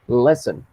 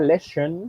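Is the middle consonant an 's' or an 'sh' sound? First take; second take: s; sh. First: The middle consonant is a plain s sound. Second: The middle consonant is an sh sound. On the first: The speaker calls it right. "La pronunciación de esa palabrita es lesson" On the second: The speaker calls it wrong. "si fuera lesson, tendría que tener una S H"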